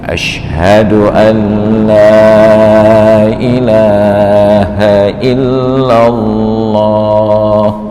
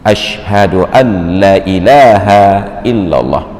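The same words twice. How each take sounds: First: The vowel in 'la' is held long. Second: The vowel in 'la' is said short. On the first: It denies that there is any god but God. The speaker calls it right. "lam itu wajib dipanjangkan minimal satu alif" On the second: It affirms that there is a god besides God. The speaker calls it wrong. "sungguh azan ini sangat salah"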